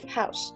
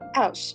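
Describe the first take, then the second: First: The initial h sound is kept. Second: The initial h sound is dropped. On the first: "instead of house" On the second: "they just eliminate the h sound in the initial words"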